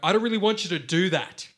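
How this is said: The voice rises at the end, Australian style.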